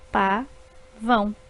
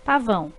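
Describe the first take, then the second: First: Pa-vão stretched out slowly in two beats; slow syllables. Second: Said in the usual way. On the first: Shown as a demonstration. Teacher slowly splitting pavão for pupils. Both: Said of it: "formadas por duas sílabas".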